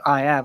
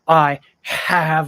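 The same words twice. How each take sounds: First: The h in 'have' is dropped. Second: The h in 'have' is fully pronounced. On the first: The speaker calls it right. "that's easy" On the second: The speaker calls it wrong. "I have a question is difficult"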